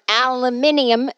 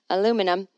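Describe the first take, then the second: First: It is said with a British pronunciation. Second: It is said with an American pronunciation.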